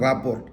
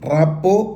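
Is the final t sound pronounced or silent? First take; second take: pronounced; silent. First: The word ends with an r and t sound. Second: The word ends on a vowel with no t. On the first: "അതിൻ്റെ spelling റാപ്പോർട്ട് എന്ന് തന്നെ" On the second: "റാപ്പോ എന്ന് നമ്മൾ പറയും"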